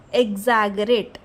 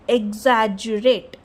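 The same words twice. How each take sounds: First: "exaggerate" with a hard g, eg-ZAG-ur-ate; hard-g mispronunciation. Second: "exaggerate" with a j sound, eg-ZAJ-ur-ate; soft-g pronunciation. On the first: Teacher warning learners off a pronunciation, "exaggerate" with a hard g. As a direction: say "exaggerate" slowly with g as in gap. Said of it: "Don't use exaggerate". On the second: Teacher correcting how to pronounce the word, "exaggerate" with a soft j. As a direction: say "exaggerate" slowly, gg as in jam. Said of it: "It is exaggerate". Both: Shown as a demonstration.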